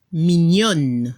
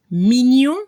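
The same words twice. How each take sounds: First: MIGNONNE with a clear final n; feminine French mignonne. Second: MIGNON ending on a nasal vowel, no n; masculine French mignon. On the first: French teacher giving the feminine, MIGNONNE with audible n. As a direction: drop low and close MIGNONNE on n, silent e. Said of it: "Se escucha la N al final". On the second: French teacher giving the masculine example, MIGNON ending nasal. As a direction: rise on MIGNON with a blocked-nose final vowel. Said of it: "Otro ejemplo". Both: Shown as a demonstration.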